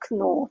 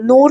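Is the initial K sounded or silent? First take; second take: sounded; silent. First: The initial K is clearly pronounced. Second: The initial K is silent. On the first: "in German it is Knorr ... So that K you have to pronounce" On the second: "in English we say, mostly we'll say uh, Knorr"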